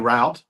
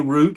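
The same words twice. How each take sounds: First: It is said the way the southern speaker says it. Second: It is said the way the northern interviewer says it. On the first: This is how people here say it. The speaker calls it right. "we say route" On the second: This is how the other person says it. The speaker calls it wrong. "we don't say route"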